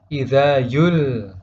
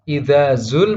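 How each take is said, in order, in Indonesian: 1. Kata kedua diawali dengan bunyi y. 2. Kata kedua diawali dengan bunyi z.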